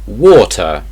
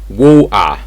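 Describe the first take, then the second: First: The middle T is clearly pronounced. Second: The middle T is replaced by a glottal stop. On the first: "in regular English, you'd say water" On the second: "In Cockney English, this will be water"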